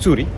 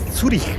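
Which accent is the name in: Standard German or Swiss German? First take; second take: Swiss German; Standard German. First: It is said with a Swiss German accent. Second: It is said in Standard German with throaty ch. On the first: "en el dialecto suizo eh, se dice Zürich" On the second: "En alemán se dice Zürich porque la C y H suenan como J"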